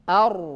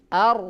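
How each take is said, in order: First: The r is said with lips pushed forward. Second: The r is said without pushing the lips. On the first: The speaker calls it wrong. "bibir tidak boleh maju ke depan. Ini salah" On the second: The speaker calls it right. "ro ini tugasnya lidah, bukan tugas bibir"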